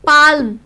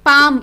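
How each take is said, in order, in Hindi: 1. M से पहले L की आवाज़ बोली जाती है। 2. M से पहले L की कोई आवाज़ नहीं बोली जाती। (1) "इसको पाल्म नहीं बोलेंगे, वो प्रोनाउंस गलत होता है" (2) "इसको पाम बोलेंगे"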